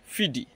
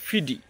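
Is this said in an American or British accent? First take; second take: American; American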